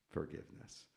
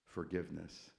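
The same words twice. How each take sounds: The two takes are said the same way.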